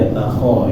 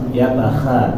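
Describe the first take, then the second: First: The vowel after kh sounds like o. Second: The vowel after kh sounds like a. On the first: The speaker calls it right. "tapi yatakho ya" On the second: The speaker calls it wrong. "bacanya keliru menjadi kha"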